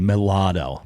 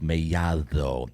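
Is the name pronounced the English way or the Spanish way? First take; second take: English; Spanish. First: Pronounced the English way, with a plain L sound. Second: Pronounced the Spanish way, with a soft D. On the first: The speaker does not know the name. The speaker calls it wrong. "They look at two L's and say mulatto" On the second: The speaker knows the name. The speaker calls it right. "the D's like a T H almost"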